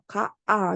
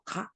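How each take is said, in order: First: Two separate vowels are pronounced in a row. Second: The repeated vowel is merged into one. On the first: The speaker calls it wrong. "이렇게 하지 않아요" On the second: The speaker calls it right. "이렇게 한다는 거야"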